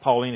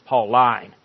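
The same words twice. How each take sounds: First: It is pronounced like a woman's first name. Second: It is pronounced as an adjective, not a name. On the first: The teaching seems to come from a woman. "it's not Pauline, ... afraid that it might sound like it's something that a woman said" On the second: The teaching comes from Paul. "it's Pauline"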